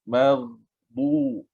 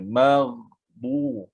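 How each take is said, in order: First: The gh sound is held and flows on. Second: The gh sound is held and flows on.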